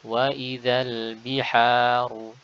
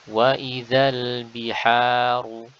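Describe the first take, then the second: No difference in how they are said.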